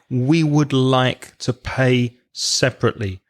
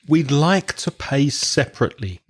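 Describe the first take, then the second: First: 'We would' is said as two full words. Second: 'We would' is contracted to 'we'd'.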